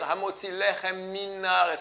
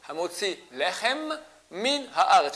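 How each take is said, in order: First: The two M sounds merge into one. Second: Both M sounds are pronounced separately. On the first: The speaker calls it wrong. "On fait la liaison, c'est comme s'il y a un seul M" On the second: The speaker calls it right. "Je dis deux fois M"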